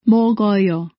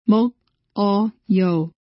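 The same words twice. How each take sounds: First: The final k starts the next syllable. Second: The final k is kept apart from the next syllable. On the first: The speaker calls it right. "O. In this case, the final consonant K is realized as the initial consonant of the second syllable" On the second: The speaker calls it wrong.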